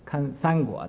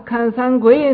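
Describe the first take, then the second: First: The last word is said with a guo sound. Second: The last word is said with a gui sound. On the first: This is the standard form of the title. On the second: A Shandong speaker is saying it.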